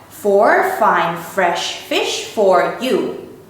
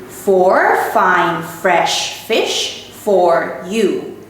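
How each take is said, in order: Both takes have the same delivery.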